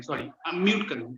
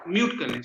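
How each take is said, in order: First: Fix it with "sorry, unmute" lightly stressed; gentle correction stressing "unmute"; quick self-correction. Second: Said in the usual way. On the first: Real, not acted.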